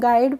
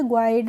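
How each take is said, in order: First: There is no w sound after g. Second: A w sound follows the g. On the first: The speaker calls it right. "गाइड पढ़ेंगे" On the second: The speaker calls it wrong. "ग्वाइड नहीं पढ़ेंगे इसको"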